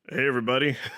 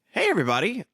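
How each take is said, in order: First: It is said in a lower, deeper voice. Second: It is said in a normal voice.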